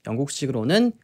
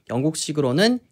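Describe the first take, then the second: The two takes are said the same way.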